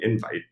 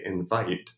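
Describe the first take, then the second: First: The stress is on the first syllable. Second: The stress is on the second syllable. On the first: The word is a noun. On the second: The word is a verb.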